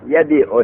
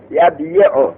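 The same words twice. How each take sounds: First: Said in the usual way. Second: یبیع slowly as yab-yi-u; uncontracted form. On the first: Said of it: "به ما قبل دادن". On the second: Shown as a demonstration. Teacher showing why the vowel moves, یبیع slowly as yab-yi-u. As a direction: sound the heavy y-i in یبیع after yab. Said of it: "کسره بر یا ثقیل".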